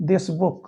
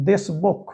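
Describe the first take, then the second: No difference in how they are said.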